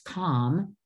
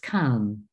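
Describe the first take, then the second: First: The vowel is an open 'ah' sound. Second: The vowel is a short 'uh' sound. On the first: The speaker calls it wrong. "it looks like it's calm" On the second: The speaker calls it right. "the most common pronunciation in words is come"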